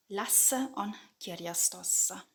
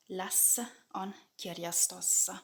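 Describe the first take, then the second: No difference in how they are said.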